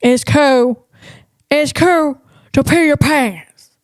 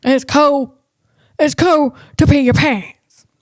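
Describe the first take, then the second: First: Another stab at Sandler's dopey delivery; Adam Sandler impression. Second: Light attempt at a goofy comedian voice; half-landed Sandler impersonation; Adam Sandler impression. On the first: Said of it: "I'm not there yet". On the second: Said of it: "I'm trying to do his accent".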